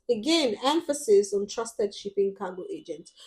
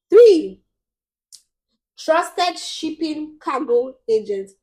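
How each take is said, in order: First: Said in the usual way. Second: "trusted" punched high and loud, the phrase slowed; stress on trusted. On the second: Shown as a demonstration. Vlogger listing tips for buyers, loud slow stress on "trusted". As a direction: hit "trusted" hard, then draw out "shipping cargo agents".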